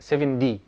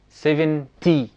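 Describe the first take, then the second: First: The t is pronounced like a d. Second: The t is pronounced as a clear t. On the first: The speaker calls it right. "لا هي سبعة دي" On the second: The speaker calls it wrong. "فانت ما بتقولش مثلا سبعة تي"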